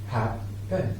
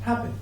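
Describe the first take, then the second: First: There is a pause between the two syllables. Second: The two syllables are joined without a pause.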